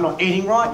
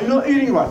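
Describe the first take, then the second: First: Said in the usual way. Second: Higher, nagging doctor voice; imitating a scolding doctor; mock doctor. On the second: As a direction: lecture like a prissy doctor. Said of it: "You know".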